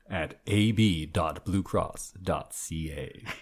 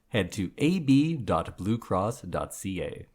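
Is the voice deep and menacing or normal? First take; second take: deep and menacing; normal. First: It is said in a deep, menacing voice. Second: It is said in a normal announcer voice.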